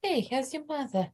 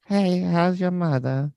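First: Put-on Spanish accent. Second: Put-on high, slow old lady Spanish accent. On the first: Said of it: "This is his Spanish accent". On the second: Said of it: "This sounds like an old lady".

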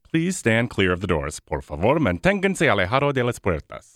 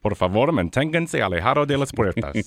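First: Imitating the monorail announcer; announcer reading a safety notice; train station announcement. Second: Spanish announcer voice, a bit higher; train station announcement. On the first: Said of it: "can you do the announcement for the monorail". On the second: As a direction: repeat the Spanish door warning like the announcer. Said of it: "Say the Spanish version again". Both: Shown as a demonstration.

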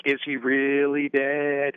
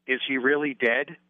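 First: Slow, drawn-out question. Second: Said in the usual way. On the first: Retold or imitated. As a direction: stretch every word out slowly. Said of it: "It's sort of drawn out". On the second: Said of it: "It's sort of a very".

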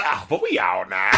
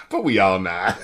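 First: Low, drawled Southern twang; imitating the rapper's twang. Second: Imitating the rapper. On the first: Reviewer showing how the rapper delivers the line. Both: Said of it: "it's the way he says".

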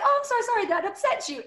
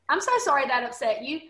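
First: Much higher, sugary mock apology; sing-song sarcastic sorry; sarcastic fake sympathy. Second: Said in the usual way. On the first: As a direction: sweetly needle him with fake sorrow. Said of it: "really, that was my response". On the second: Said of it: "I was like".

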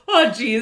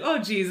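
First: Higher, louder teasing echo; mocking echo. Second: Said in the usual way. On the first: Imitating Jeff calling her out, mocking echo. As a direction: parrot it back, laughing. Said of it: "And then Jeff will go". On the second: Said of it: "I'll be like".

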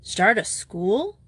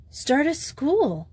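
First: "Start a school?" repeated slowly with a rising question; incredulous echo. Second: "Start a school" said slow and high, a bold reveal; startling announcement. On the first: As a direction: echo "Start a school?" in disbelief, slow, lifting at the end. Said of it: "He stared at her". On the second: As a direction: drop "Start a school" as a surprise, slowly and up high. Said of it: "the sufficiently startling reply". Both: A narrator's reading.

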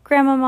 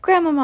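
First: High, loud cry calling down to grandmother; boy calling down from a tree, high and loud; shouting. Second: Very high, loud, frantic cry; frantic boy in a tree calling his grandmother; desperate shout. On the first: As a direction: call out to her from the tree, anxious. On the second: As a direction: cry out for her in fear. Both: A narrator's reading. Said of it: "I shouted".

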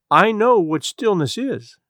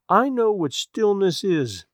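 First: Queer flat monotone, slow; monotonous voice. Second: Queer monotone repeated, slow; same dead slow tone again; monotonous voice. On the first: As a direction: say it slow in one dead tone. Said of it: "in a queer, monotonous voice". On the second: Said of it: "repeated Missus Peters in just that same way". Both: A narrator's reading.

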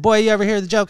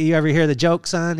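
First: Put-on higher and louder, a dad's teasing call of boy; imitating his dad. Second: Said in the usual way. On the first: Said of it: "He called me boy". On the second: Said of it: "He said".

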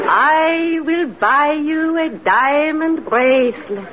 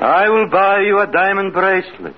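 First: Hypnotic command. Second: Entranced echo. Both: Acted. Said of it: "Now repeat after me".

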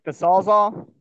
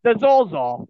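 First: "Sawzall" slowly, with no r; slow, careful "Sawzall" to explain the word; clarifying pronunciation. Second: "Zorzal" with an intrusive r, pitched up; high, emphatic "Zorzal" in a put-on accent; put-on regional pronunciation. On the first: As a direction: spell out "Sawzall" slowly as saw plus zall. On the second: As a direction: say "Zorzal" with an r in the first syllable. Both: Shown as a demonstration. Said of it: "I don't know what the fuck you call it".

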